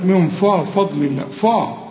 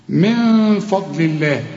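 First: فضل الله with ف thickened to "faw"; wrong heavy faa. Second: Slow recited من فضل الله with a thin ف; light faa. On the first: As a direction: imitate the common backed ف in فضل الله. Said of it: "هنا ناس كتير قوي تقول لك". (فضل الله بفاء مفخمة غلط) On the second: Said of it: "دائمًا وفي كل القرآن مرققة". (من فضل الله بفاء مرققة) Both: Shown as a demonstration.

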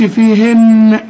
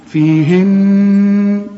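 First: "فيهن" with the final n popped open in an echo; wrong bounced noon. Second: "فيهن" very slow, the final n held as a long hum; stop on ghunna. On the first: Teacher shows what not to say, bouncing n. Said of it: "وتقلقل النون". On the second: Teacher models an instructional stop, long humming n. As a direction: sustain a nasal n to close "فيهن". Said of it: "تقف برضه وتقول". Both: Shown as a demonstration.

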